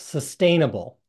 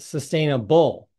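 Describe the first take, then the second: First: The stress falls on the 'sustain' part. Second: The stress falls outside the 'sustain' part.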